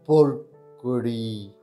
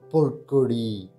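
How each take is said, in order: First: It is said slowly. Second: It is said at normal speed.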